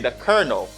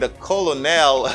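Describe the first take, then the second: First: The word is said like 'kernel', with 'ker'. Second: The word is said as spelled, with 'col'. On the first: The speaker calls it right. "You say the colonel" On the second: The speaker calls it wrong. "Instead of saying the colonel, no, they, they don't say that"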